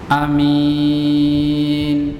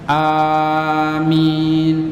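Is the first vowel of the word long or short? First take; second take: short; long. First: The first vowel is kept short. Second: The first vowel is held long. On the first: "tanpa memanjangkan hamzanya" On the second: "tapi a-nya yang panjang"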